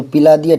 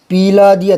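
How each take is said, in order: First: पिला with a brief pi, louder; correct short vowel. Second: पिला stretched to "pee-laa"; mock error, overlong pee in पिला; wrong long vowel. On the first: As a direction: keep the first i of पिला short. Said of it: "ठीक है". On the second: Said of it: "पिला दिया थोड़ी होगा". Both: Shown as a demonstration.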